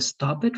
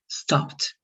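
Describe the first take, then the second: First: The ending is pronounced as an extra syllable. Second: The ending is a short t sound. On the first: The speaker calls it wrong. "Instead of a stop it" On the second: The speaker calls it right. "That same pronunciation with the t"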